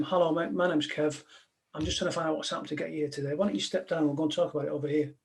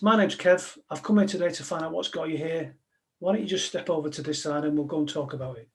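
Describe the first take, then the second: First: Softer and fast, easy and friendly; calm negotiator. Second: Practised calming line. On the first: Retold or imitated. Negotiator to the man on the roof, soft and fast. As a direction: talk a man down like a mate. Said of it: "I went out and I said to him". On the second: Shown as a demonstration. Negotiator showing the audience his practised opener, steady. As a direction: deliver it like a rehearsed script. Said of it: "And the line was this".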